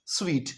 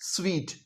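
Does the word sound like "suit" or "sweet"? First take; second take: sweet; sweet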